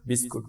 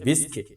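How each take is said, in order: First: The second vowel sounds like oo. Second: The second vowel sounds like ee. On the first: The speaker calls it wrong. "উচ্চারণে ভুল করে থাকো, বিস্কুট বলো" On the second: The speaker calls it right. "সঠিক উচ্চারণ হচ্ছে বিস্কিট"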